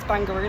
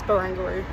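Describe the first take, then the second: First: The name is said with three syllables. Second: The name is said with four syllables. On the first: The speaker calls it wrong. "In my head, I was reading it as Bangaroo, like kangaroo" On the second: The speaker calls it right. "but no, I think it's Barangaroo"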